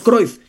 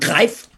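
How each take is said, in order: First: The name is said with a Mexican Spanish pronunciation. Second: The name is said with a Dutch-style pronunciation. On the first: This is the common local pronunciation everyone uses. "al que todos en México le decimos Cruyff" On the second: This is the original pronunciation, unfamiliar to local listeners. "si yo llegara a hablar de una leyenda llamada Johan Cruyff, ¿me dirían quién?"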